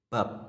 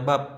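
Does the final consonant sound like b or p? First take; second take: p; b. First: The final consonant sounds like p. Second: The final consonant sounds like b. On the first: The speaker calls it right. "tapi jadi bab ya" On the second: The speaker calls it wrong. "tidak dibaca bab ya"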